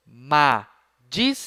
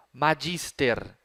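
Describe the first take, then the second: First: MAGISTER as Ma, gis, ter, with pauses; split into syllables. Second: Said in the usual way. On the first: Shown as a demonstration. Teacher dividing the word for pupils, split into syllables. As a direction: slowly sound out Magister syllable by syllable. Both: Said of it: "separar as palavras em sílabas".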